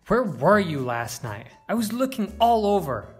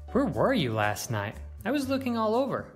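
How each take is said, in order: First: The voice sounds angry. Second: The voice sounds curious. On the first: "Or even angry" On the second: "We could sound curious"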